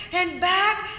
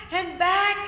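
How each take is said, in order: Both takes have the same delivery.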